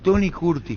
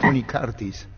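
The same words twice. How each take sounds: First: The surname is said the older local way. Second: The surname is said with its final s. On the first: This is how the name was said back then. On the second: This is how the name would be said today.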